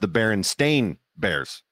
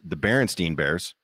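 First: The surname ends with a 'stain' sound. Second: The surname ends with a 'stein' sound. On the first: The speaker calls it right. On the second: The speaker calls it wrong.

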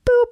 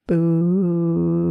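First: It is said short and quick. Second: It is drawn out for a long time.

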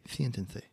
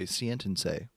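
First: It is said with a Spain Spanish lisp. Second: It is said with a Mexican Spanish accent. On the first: "If I was from Spain, I'd say" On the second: "if I was from Mexico, I'd say"

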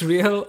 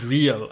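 First: It is pronounced the Spanish way. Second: It is pronounced the English way. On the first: It refers to the football club's name. "is it like Real Madrid's real" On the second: It is the ordinary English word. "or the word real?"

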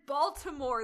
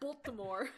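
First: The vowel after the B is clearly pronounced. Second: The vowel after the B is dropped. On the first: The speaker calls it right. "There's an A in it" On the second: The speaker calls it wrong. "You were like Baltimore. ... did not pronounce the A at all"

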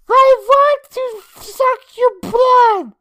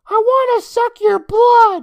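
First: It is said in a put-on Transylvanian accent. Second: It is read in a plain, ordinary voice.

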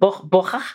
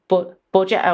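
First: The name is pronounced the Spanish way. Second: The name is pronounced the usual English way.

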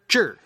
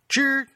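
First: The pitch falls sharply from high to low. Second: The pitch stays high and level. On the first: It means will or aspirations. "fourth tone" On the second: It is a possessive particle. "first tone"

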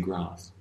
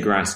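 First: It is said in a posh Queen's English accent. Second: It is said in the speaker's everyday accent.

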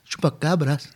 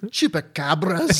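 First: It is said in the speaker's ordinary accent. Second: It is said in a Scottish accent.

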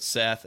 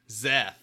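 First: The name begins with an S sound. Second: The name begins with a Z sound.

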